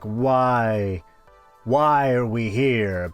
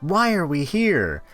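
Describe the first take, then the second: First: It is said in a deep, existential way. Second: It is said in a plain, casual way.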